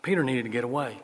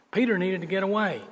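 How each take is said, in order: First: Said in the usual way. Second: Higher, stressing PETER; emphatic repeat. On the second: Shown as a demonstration. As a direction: press "Peter needed to get away" harder. Preacher repeats line for emphasis.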